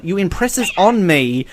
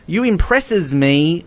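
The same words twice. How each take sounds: First: Careful, slower reading with ON put back in; "on" set out clearly after "impresses"; corrected reading. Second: Said in the usual way. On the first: Real, not acted. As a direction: read deliberately, marking the added word "on". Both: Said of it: "no, sorry, hang on".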